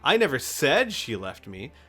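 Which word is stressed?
said. The stress is on the word said.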